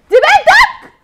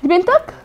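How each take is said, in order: First: High, loud shouted accusation; furious shout. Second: Said in the usual way. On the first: Acted. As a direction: scream the question at him. Wife confronts husband about daughter.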